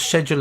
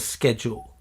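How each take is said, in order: First: It is said with a British pronunciation. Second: It is said with an American pronunciation.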